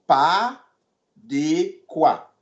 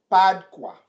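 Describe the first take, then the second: First: Pas, then de quoi after a pause; split into two parts. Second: Said in the usual way. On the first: Shown as a demonstration.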